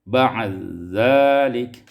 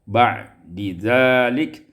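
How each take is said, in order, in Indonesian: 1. Bunyi d menyatu ke dalam bunyi z. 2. Bunyi d dan z tetap dipisah.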